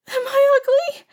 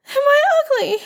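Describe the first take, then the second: First: Put-on high wailing young girl. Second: Put-on high, louder girlish wail. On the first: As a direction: wail it like a hurt child. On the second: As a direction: wail it harder, more desperate. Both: A narrator's reading. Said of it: "started wailing".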